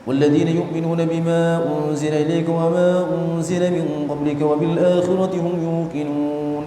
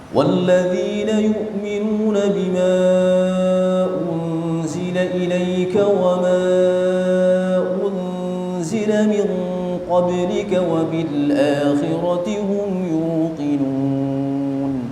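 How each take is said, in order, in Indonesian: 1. Ayat ini dibaca dengan kecepatan cepat. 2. Ayat ini dibaca dengan kecepatan sedang. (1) "Kalau hadar itu kayak gini" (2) "masih masuk tingkatan tadwir ya. Cuman yang agak cepat"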